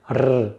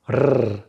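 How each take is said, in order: No difference in how they are said.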